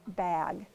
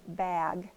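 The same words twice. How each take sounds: The two takes are said the same way.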